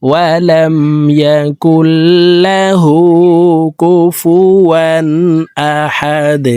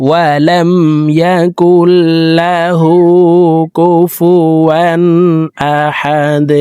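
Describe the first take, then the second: No difference in how they are said.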